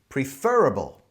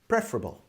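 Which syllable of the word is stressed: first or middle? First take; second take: middle; first. First: The stress is on the middle syllable. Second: The stress is on the first syllable. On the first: "with the stress on the fur in the center" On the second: "like e as in bed"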